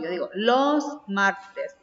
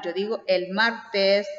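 First: "los" leaned on to mark the plural, said slowly; slow down and hit "los" in "los martes"; teacher stressing "los" for the plural. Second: Said in the usual way. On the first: Shown as a demonstration. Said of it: "pero el plural, ¿cómo lo formo?". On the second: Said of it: "Cómo formamos entonces el singular".

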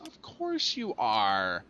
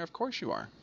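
First: Very slow, stretched COURSE and ARE; drawn-out sarcasm. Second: Higher, softer quick aside; resigned. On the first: Player finding the vehicle stuck, drawn-out sarcasm. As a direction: drag out "Of course you are" at half speed. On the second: Player finding the vehicle stuck back down here, resigned. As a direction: toss it off softly on a higher pitch. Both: Real, not acted.

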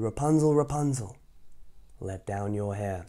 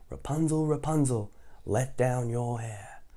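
First: Witch calling. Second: Slow sing-song chant; drawn-out lead for listeners; say it along. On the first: Acted. Witch calling up to Rapunzel in the tower. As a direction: call up the tower. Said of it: "she called". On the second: Shown as a demonstration. Storyteller inviting kids to chant along. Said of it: "You wanna say it with me".

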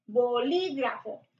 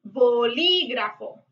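First: Said in the usual way. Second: Bolígrafo slowed, LÍ stressed; Bolígrafo said slowly, weight on the accented I. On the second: Shown as a demonstration. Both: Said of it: "tiene acento en la I".

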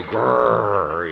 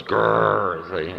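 First: Loud imitated dog growl. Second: Dog growl. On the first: Dog sensing the visitor, a loud mock growl. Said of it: "Dogs go". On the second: Retold or imitated. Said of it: "the dog goes".

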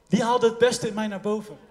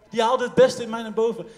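The two takes are said the same way.

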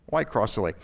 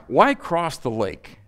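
First: Lower, softer echo of a question; quiet repeat. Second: Slow, drawn-out "Why cross the lake?" on a falling tune; emphatic question. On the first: Preacher letting the question sink in, quietly. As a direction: drop the voice low and soft, as an afterthought. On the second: Preacher posing "Why cross the lake?" to the congregation, slow and emphatic. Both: Real, not acted.

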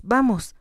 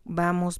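First: Higher, louder calming vamos; urgent soothing. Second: Said in the usual way. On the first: A narrator's reading. Doctor calms the collapsing Jocelyn, urgent soothing. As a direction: vamos pushed up to calm her quickly. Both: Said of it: "la tranquilizó".

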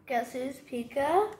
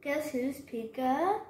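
The two takes are said the same way.

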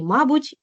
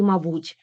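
First: Мабуть with the first syllable МА stressed, higher. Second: Мабуть with the last syllable БУТЬ stressed. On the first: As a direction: hit МА in мабуть. (мабуть з наголосом на перший склад) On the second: (мабуть з наголосом на останній склад) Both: Shown as a demonstration. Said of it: "слова із подвійним наголосом".

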